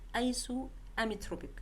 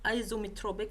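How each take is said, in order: First: It is said with a vowel after 'iso'. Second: It is said without the vowel after 'iso'. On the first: The speaker calls it right. "don't forget the A here" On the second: The speaker calls it wrong. "Don't say isometropic"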